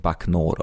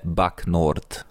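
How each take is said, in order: First: It is read with a French pronunciation. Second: It is read with a Hungarian pronunciation.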